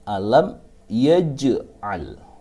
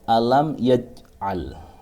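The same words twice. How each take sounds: First: The j sound is released with a bounce. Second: The j sound stops dead without a bounce. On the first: The speaker calls it right. "harus jim di sini dipantulkan" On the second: The speaker calls it wrong. "Tidak boleh membaca alam yaj'al. Tidak dipantulkan"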